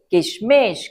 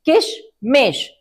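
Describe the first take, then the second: First: Said in the usual way. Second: किशमिश split as किश and मिश, said slowly; broken into parts. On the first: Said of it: "इकट्ठा बोलिए". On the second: Shown as a demonstration. Teacher showing children how to split a long word, slowly. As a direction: break the word in two. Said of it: "तोड़ तोड़ कर बोल सकते हैं".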